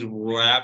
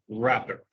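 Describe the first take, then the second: First: The initial W sound is pronounced. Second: The initial W sound is silent. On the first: The speaker calls it wrong. "no decimos" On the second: The speaker calls it right. "la W no se pronuncia"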